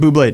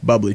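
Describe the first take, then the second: First: The name ends with a 'blay' sound. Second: The name ends with a 'blee' sound.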